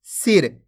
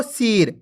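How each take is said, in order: First: सिर with a short clipped i, not drawn out; सिर with a short i sound; short i, correct. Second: सिर with the i stretched long like सीर; सिर with a long, wrong i; drawn-out wrong i. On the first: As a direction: say सिर quickly, the i kept brief. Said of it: "इसी तरीके से पढ़ना आपको, जिस तरीके से मैं पढ़ रहा हूं". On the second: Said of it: "ऐसे नहीं पढ़ना आपको". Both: Shown as a demonstration.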